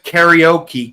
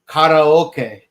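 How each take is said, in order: First: The word is said with English-style vowels. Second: The word is said with Japanese-style vowels. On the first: The speaker calls it wrong. "everyone's like" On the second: The speaker calls it right. "correct way to say it is karaoke"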